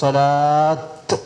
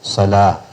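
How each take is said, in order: First: The word ends with a t sound. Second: The word ends with an h sound. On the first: The speaker calls it wrong. "എന്ന് പറയാൻ പാടില്ല" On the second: The speaker calls it right. "ഉച്ചാരണം ഹ എന്നായിരിക്കും"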